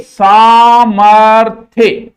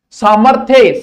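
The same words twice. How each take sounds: First: सामर्थ्य loud and very slow, saa-mar-thya; drawn-out model pronunciation. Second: Said in the usual way. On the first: Shown as a demonstration. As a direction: stretch every syllable of सामर्थ्य loudly for the class. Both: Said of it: "बोलो बार बार मेरे संगे".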